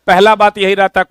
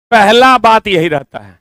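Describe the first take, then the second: First: Said in the usual way. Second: "पहला" hit hard, whole line louder and slower; emphatic repeat. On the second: Shown as a demonstration. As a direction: lean on "पहला", slow and loud.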